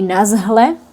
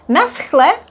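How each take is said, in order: First: The middle consonant is a soft, voiced h. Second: The middle consonant is a rough, scraping ch. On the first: This is how people in Moravia say it. "but in Moravia, for example, this would be nazhle" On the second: This is how people in Bohemia say it. "here in Bohemia, we pronounce h"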